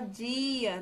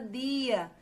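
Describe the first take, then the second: First: The D has a hissing 'j' sound. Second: The D is a plain stop sound. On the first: This is how people in the southeast say it. "Já dá um chiadinho, que é diferente" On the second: This is how people in the north say it. "a gente aqui na nossa região norte, a gente fala"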